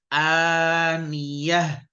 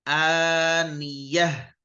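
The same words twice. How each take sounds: First: The word ends in a soft 'h' sound. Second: The word ends in a soft 'h' sound.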